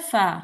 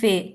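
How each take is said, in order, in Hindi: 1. इस अक्षर के नाम का अंत 'a' स्वर से होता है। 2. इस अक्षर के नाम का अंत 'e' स्वर से होता है। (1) "तो ये क्या बन जाएगा?" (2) "इसको आप कहते हैं फे"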